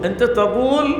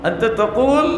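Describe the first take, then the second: Both takes have the same delivery.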